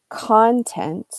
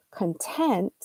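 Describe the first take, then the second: First: CONtent, first syllable hit hard; stress on first syllable. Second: ConTENT, second syllable hit; stress on last syllable. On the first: Teacher showing the noun, stress on CON. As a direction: say content as CON-tent, weight up front. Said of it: "if you highlight the first syllable". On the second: Teacher showing the adjective, stress on TENT. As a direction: say content as con-TENT, weight at the end. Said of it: "if you highlight the last syllable". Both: Shown as a demonstration.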